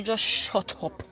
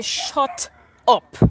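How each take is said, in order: First: Slowed and deliberate, each word weighed; measured, steady put-down; slow firm retort. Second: Louder snapped shut up; a sharper, louder second shut up; retold shout. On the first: Retold or imitated. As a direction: cut him off slowly and firmly. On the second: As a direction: bark it back at him. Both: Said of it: "I say".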